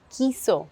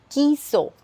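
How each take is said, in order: Both takes have the same delivery.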